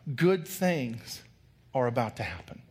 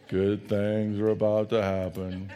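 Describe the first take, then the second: First: It is said in his normal lively voice. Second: It is said in a gloomy Eeyore voice.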